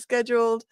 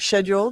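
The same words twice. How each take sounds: First: It is said in a North American way. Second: It is said in a British way.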